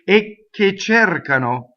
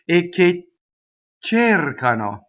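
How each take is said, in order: First: The first consonant of che is doubled. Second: The first consonant of cercano is doubled. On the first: "either the a can double the k" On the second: "or the k can double the uh, cercano"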